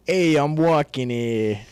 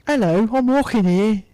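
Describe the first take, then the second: First: Slow, drawn-out, loud New York accent. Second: Put-on high, loud joke take on a York accent; Old York accent. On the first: Shown as a demonstration. Friend redoes accent on request, broad New York. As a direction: stretch out a hammed-up New York street shout. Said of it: "do your best New York accent". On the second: Friend asked for New York, gives mock Old York accent. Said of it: "Old York".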